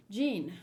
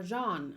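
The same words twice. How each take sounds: First: "Jean" said like "jeen", the French-sounding vowel narrowed to ee; first try at the name. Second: "Jean" said "zhahn", French style with a nasal ah; corrected name. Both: Shown as a demonstration. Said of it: "or Jean".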